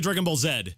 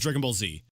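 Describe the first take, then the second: First: The final letter is pronounced zed. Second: The final letter is pronounced zee. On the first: The speaker calls it wrong. "I don't say Dragon Ball Z" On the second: The speaker calls it right. "It's Dragon Ball Z"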